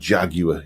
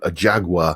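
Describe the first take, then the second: First: It is said with a British accent. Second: It is said with an American accent.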